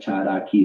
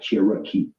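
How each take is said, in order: First: The middle consonant sounds like a D. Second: The middle consonant sounds like an R. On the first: The speaker calls it right. "the R sounds like a D. ... like Cherokee" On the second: The speaker calls it wrong. "not Cherokee"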